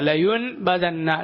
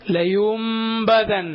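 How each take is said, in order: First: The nasal before the b sounds like n. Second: The nasal before the b sounds like m. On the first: The speaker calls it wrong. "എന്നല്ല" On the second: The speaker calls it right. "നൂനിനെ പിന്നെ മീമായിട്ടാണ് ഉച്ചരിക്കേണ്ടത്"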